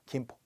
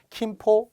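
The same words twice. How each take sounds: First: The first consonant is plain and unaspirated. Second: The first consonant is strongly aspirated. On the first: The speaker calls it right. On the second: The speaker calls it wrong.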